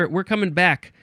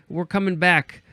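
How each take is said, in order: The two takes are said the same way.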